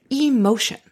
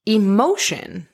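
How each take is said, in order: First: "emotion" as E-motion, long clear first E; split-word emphasis. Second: Said in the usual way. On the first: Shown as a demonstration. Explaining energy in motion, "emotion" said as E-motion. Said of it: "the actual word means energy in motion".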